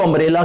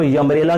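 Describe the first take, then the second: First: Said in the usual way. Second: यम्ब्रेला with an added y at the start; deliberate mispronunciation. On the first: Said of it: "इसको अम्ब्रेला क्यों बोलते हैं". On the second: Shown as a demonstration. Teacher asking why it isn't said so, यम्ब्रेला mispronounced with initial y. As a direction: put a "yuh" glide before umbrella, यम्ब्रेला. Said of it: "इसको यम्ब्रेला क्यों नहीं बोलते".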